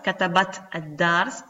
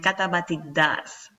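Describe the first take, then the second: First: The word ends in 't' with no added vowel. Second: An 'i' vowel links 'katabat' to 'dars'. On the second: "se transforma en katabati dars"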